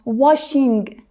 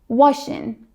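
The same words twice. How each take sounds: First: The final G sound is fully pronounced. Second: The final G sound is dropped. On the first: "I used to be like" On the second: "Americans drop the G"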